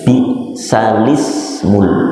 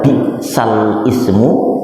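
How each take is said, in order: First: The glottal stop is dropped, linking 'sal' and 'ismu'. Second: The glottal stop before 'ismu' is pronounced. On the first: The speaker calls it right. "tapi bacanya bisalismul" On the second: The speaker calls it wrong. "tidak dibaca bisal ismu"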